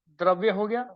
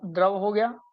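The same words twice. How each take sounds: First: Says द्रव्य with the full vy cluster, dravya; द्रव्य pronounced dravya, the y glide sounded; first try, द्रव्य said with its ending vya; slip to द्रव्य. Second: Says द्रव as short drav, no y glide; द्रव pronounced drav, the word ending clean on v; self-correction, द्रव said short as drav; corrected to द्रव. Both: Real, not acted.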